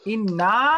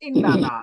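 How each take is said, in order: First: It is said short, with two syllables. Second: It is said long, with three syllables. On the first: One repeated letter has been dropped. "ইন্না বললে এখানে কয়টা নুন আছে? দুইটা" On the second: The full original form is kept. "আসলে কিন্তু ছিল ইন্না না"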